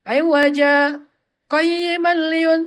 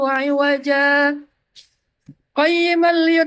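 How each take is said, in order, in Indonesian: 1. Dia berhenti sebentar tanpa bernafas. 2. Dia berhenti dan bernafas sebelum kata berikutnya. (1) "itu namanya saktah" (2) "itu namanya apa? Waqaf"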